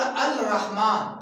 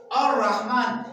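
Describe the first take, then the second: First: अल रहमान with the lam said aloud, al then rahmaan; wrong reading. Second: और रहमान read as one joined word, ar-rahmaan, lam silent; correct reading. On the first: Teacher showing pupils the mistaken reading, lam pronounced. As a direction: separate अल from रहमान and sound the l. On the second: Teacher showing pupils the right reading, lam silent. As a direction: sun letter swallows the lam in और रहमान. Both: Shown as a demonstration. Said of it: "हम लोगों ने इस तरह नहीं बोला".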